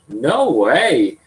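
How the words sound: The pitch rises at the end. It shows surprise. "Rising intonation"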